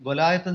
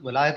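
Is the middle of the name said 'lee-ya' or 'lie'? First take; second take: lie; lie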